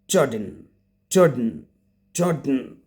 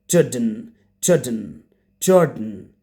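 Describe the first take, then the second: No difference in how they are said.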